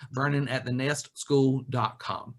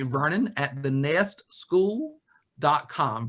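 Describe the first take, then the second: First: Said in the usual way. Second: "Vernon at the nest school dot com" spelled out slowly, word by word; slow email dictation. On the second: Shown as a demonstration. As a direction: dictate the address slowly for notes. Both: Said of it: "Nest is singular".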